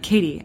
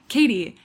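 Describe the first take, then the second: First: The name is said in a heavy, ominous way. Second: The name is said in a light, casual way. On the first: Something serious and scary is coming. The speaker calls it wrong. "Dad, don't say it like that" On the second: Nothing alarming is coming. The speaker calls it right. "Just be like"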